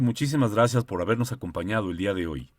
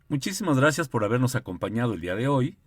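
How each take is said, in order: First: The voice closes the phrase with a final ending. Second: The voice does not close the phrase at the end. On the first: The idea is complete. The speaker calls it right. "creo que queda muy claro de que ahí termina una idea" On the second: The idea seems not to be over. The speaker calls it wrong. "imagínense que yo hiciera lo siguiente"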